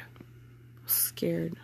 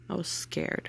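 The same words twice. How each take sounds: First: Slow, shaky whisper. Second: Quiet. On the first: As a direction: breathe it out barely voiced. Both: Real, not acted.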